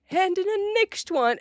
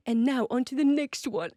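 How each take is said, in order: First: Higher voice copying the British coach; high mock copy. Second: Put-on lightly done British teacher accent; a hint of the British vocal coach; imitating a British accent. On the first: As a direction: echo the coach much higher, playfully. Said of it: "and you're like". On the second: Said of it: "he's British ... some kind of an accent".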